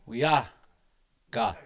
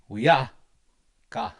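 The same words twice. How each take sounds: The two takes are said the same way.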